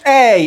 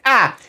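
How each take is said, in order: First: The vowel is a long gliding 'ay' sound. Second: The vowel is a short, clipped 'a' sound. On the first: This is the letter's name. "أنا ما قلتش آي" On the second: This is the letter's sound. "أنا قلت أ"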